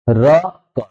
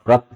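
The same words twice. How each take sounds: First: र and क said apart with a pause; split reading. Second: रक said as one joined syllable; blended reading. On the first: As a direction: sound र, then क, separately. (र और क अलग-अलग रुककर) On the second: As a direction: run र into क smoothly. (रक को जोड़कर एक साथ) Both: Shown as a demonstration. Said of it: "पहले ऊपर पढ़ लेना है".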